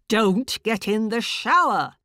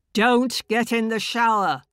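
First: Loud, high repeated bark; barked order again. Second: Loud, high barked warning; barked bullying order. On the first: Inner voice repeats its command, loud bark. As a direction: insist with force. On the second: Inner voice forbids the woman to shower, loud bark. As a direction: bark it as a command. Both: Acted. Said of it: "this awful bullying voice".

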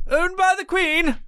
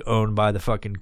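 First: High, put-on posh British voice; hammed-up British toff accent; mock British accent. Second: Said in the usual way. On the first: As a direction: play a loyal subject of the Queen. Mocking the British crown.

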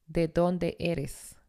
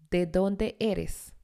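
No difference in how they are said.

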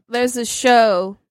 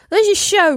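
First: Said in the usual way. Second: Higher-pitched put-on British accent; mock British lilt. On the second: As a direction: slip into a playful British accent. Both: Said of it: "I'm doing the British accent".

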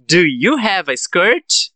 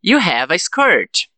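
First: Slow, "skirt" rising; question intonation. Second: Slow, "skirt" falling; affirmative statement. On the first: Teacher gives the answer after practice, slow rising question. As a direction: ask slowly, lifting up on "skirt". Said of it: "com a entonação de pergunta". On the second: Teacher prompts students to transform it, slow falling statement. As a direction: state it slowly, dropping on "skirt". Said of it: "Eu falo a frase na afirmativa". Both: Shown as a demonstration.

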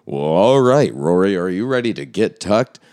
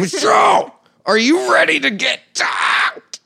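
First: Hyped host intro, drawn-up and punchy; show-opener catchphrase. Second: Very high, loud, drawn-out host holler; full show-opener shout. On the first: Host demonstrating his usual opening question, hyped catchphrase. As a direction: launch the show with a loud opener. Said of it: "I always ask everybody". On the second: Host finally asking his guest the show's question, shouted opener. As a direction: belt out the catchphrase like a hype man. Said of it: "How do I say it?". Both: Shown as a demonstration.

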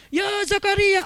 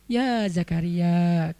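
First: Mock shouted call. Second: Low, very slow, drawn-out call; gentle divine call. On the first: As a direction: call it out the wrong way, high and strained. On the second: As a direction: call the name gently, unhurried. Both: Shown as a demonstration. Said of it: "Dan itu nggak usah diteriakin".

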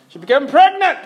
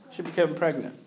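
First: PREGNANT rising high and loud, stress on pregnant; excited announcement. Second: Softer and lower, stress on became; quiet repeat. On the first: Preacher announcing friend's late baby, excited stress on pregnant. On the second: Preacher repeating the news to congregation, softly awed. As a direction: let "became" carry it, hushed. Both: Real, not acted.

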